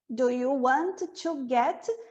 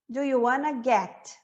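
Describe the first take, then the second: First: "Want to" is said as two full words. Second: "Want to" is reduced to "wanna". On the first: It is a more formal way to ask. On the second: It is an informal way to ask.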